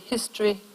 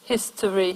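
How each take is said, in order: First: The word is said with two syllables. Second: The word is said with three syllables.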